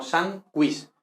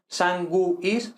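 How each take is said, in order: First: "sanguis" slowly as SAN-gwis; two beats, "sanguis" with a w glide; GUIS one syllable. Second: "sanguis" slowly as san-GU-is; three separated beats in "sanguis"; U as separate syllable. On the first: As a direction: merge U and I in "sanguis". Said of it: "forma una misma sílaba". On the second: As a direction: break "sanguis" between U and I. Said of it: "no dos sílabas separadas". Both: Shown as a demonstration.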